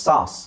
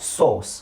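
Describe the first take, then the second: First: The vowel is an open 'ah' sound, American-style. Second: The vowel is a rounded 'oh'-like sound, British-style. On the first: "ಸಾಸ್ ಆ ಜಾಸ್ತಿ use ಮಾಡ್ತಾರೆ ಅವರು" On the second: "ಸೋಸ್ ಅಂತ ಹೇಳ್ತಾರೆ ಅವರು"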